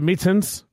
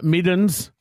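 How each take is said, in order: First: The middle consonant is sounded as a clear T. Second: The middle consonant is sounded like a D. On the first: The speaker calls it right. "all words with the letter T in them become a D" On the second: The speaker calls it wrong. "middens instead of mittens"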